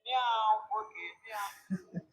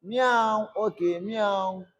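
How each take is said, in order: First: Much softer meow, almost under the breath; hushed cat imitation; quiet mock meow. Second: Playful meow into the recorder; light cat imitation; mock cat meow. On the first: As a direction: meow softly at the mic. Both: Shown as a demonstration. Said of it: "Let me record it".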